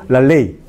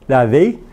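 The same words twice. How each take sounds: First: The l is made with the tongue behind the teeth. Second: The l is made with the tongue on the teeth. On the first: The speaker calls it right. "La lengua debe tocar la región alveolar" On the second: The speaker calls it wrong. "eso es la pronunciación equivocada"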